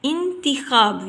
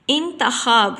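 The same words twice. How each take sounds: First: "انتخاب" slowly as in-ti-khab; correct pronunciation. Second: "انتخاب" as intakhab, a after the t; wrong pronunciation. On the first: Teacher gives students the correct reading, "انتخاب" as in-ti-khab. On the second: Teacher shows students the faulty reading, "انتخاب" said as in-ta-khab. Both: Shown as a demonstration. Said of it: "تے کے نیچے ہم زیر کی علامت".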